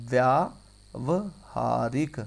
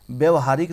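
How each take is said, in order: First: व्यावहारिक slowly, in parts व्या, व, हा, रिक; correct form, syllabified. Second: Said in the usual way. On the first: Shown as a demonstration. Teacher showing how it is written, syllable by syllable. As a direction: stretch a long व्या, then pause between syllables. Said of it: "कैसे?". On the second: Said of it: "नहीं होता".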